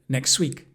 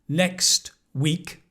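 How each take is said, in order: First: The T sound in next is dropped. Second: The T sound in next is pronounced.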